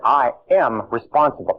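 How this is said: It is said with strong emotion.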